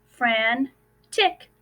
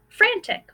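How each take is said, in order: First: Said in the usual way. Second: "Frantic" jumps up high, with a falling tune; high bright repeat. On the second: Shown as a demonstration. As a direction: sing out "Frantic" on a high note, then let it fall. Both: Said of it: "Let's take a look at another word".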